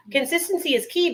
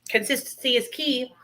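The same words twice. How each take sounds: First: "Consistency is key" said higher, rising on "key"; higher sing-song motto. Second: Said in the usual way. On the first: Shown as a demonstration. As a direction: lift "key" up like a cheerful slogan.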